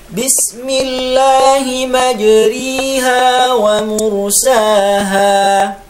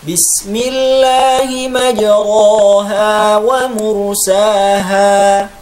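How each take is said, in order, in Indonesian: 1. Vokal setelah r menjadi i penuh. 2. Vokal setelah r adalah a terbuka biasa. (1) "imalah dibaca kasroh" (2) "membaca imalah seperti membaca fathah"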